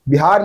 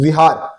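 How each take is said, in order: First: The word begins with a B sound. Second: The word begins with a V sound. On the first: The speaker calls it wrong. "नहीं" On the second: The speaker calls it right. "बौद्ध धर्म में इसको विहार बोला जाता है"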